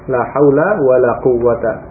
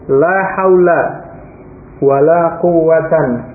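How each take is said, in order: First: The last word ends without an n sound. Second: The last word ends with an n sound. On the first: The second la takes the plain, indeclinable construction. "nasab dan tidak tanwin" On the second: The second la's noun takes the accusative with nunation. "bentuk yang kedua ... tanwin"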